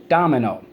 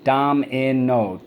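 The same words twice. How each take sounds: First: Said in the usual way. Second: "Domino" slowly as dom, i, no; syllable by syllable. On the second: Shown as a demonstration. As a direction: sound out "Domino" in three even beats. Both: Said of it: "So let's go".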